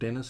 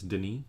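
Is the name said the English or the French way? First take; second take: English; French. First: The name is said the English way, like Dennis. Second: The name is said the French way, like Deh-nee. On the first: The speaker calls it wrong. "his name's not Dennis" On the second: The speaker calls it right. "it's Denis"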